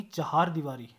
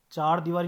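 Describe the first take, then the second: First: चार दीवारी said as 'cha-haar-deevaari'; correct pronunciation. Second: चार दीवारी with one-syllable 'chaar'; no h sound in चार दीवारी; wrong pronunciation. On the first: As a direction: open चार into 'cha-haar'. (चार दीवारी का सही रूप, चहारदीवारी) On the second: (चार दीवारी, ह के बिना) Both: Shown as a demonstration. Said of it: "चार दीवारी नहीं".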